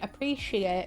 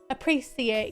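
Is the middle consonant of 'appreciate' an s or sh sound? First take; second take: sh; s. First: The middle consonant is a sh sound. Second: The middle consonant is an s sound. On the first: Most local people say it this way. "It's like a sh sound, not a s" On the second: A relative says it this way. "But my auntie goes"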